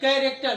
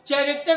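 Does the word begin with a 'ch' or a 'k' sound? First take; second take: k; ch. First: The word begins with a 'k' sound. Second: The word begins with a 'ch' sound. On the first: The speaker calls it right. "सी एच का उच्चारण क" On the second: The speaker calls it wrong. "कैरेक्टर नहीं"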